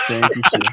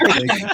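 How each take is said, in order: First: Said in the usual way. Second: High, sing-song thank you; mock dismissive thanks. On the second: Host jokingly ending the Arsenal fan's time, high sing-song. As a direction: playfully shoo the guest off.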